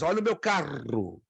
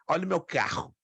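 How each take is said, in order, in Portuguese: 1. O R duplo tem o som do sul do Brasil. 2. O R duplo tem o som carioca. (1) "é hispano, não é? Ou é sulista" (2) "você sabe que é carioca ou é nordestino ou é mineiro"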